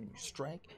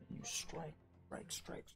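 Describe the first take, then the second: First: Said in the usual way. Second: Repeated strike words sinking to a whisper; fading whisper. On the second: A narrator's reading. Game master narrating rapid blows, whispering away. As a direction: let each strike fade into breath.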